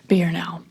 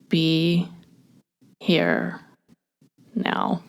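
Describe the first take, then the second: First: It is said fast. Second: It is said slowly.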